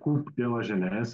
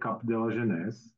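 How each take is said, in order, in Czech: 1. První slovo má samohlásku 'oo', jako v 'coop'. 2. První slovo má samohlásku 'a', jako v 'cap'. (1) "oficiální výslovnost je kup" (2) "protože si říkal Cap de la Jeunesse, a tak to není"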